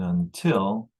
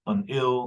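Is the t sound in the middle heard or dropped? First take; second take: heard; dropped. First: The middle t is clearly pronounced with aspiration. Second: The middle t is dropped completely. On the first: The speaker calls it right. "until will be pronounced this way" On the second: The speaker calls it wrong. "no one says unil"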